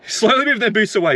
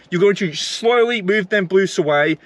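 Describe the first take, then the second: First: Repeated through a scornful chuckle; bitter laugh. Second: Said in the usual way. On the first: Real, not acted. Ranting driver mocks Uber's sneaky move, laughing bitterly. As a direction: laugh it out in disbelief.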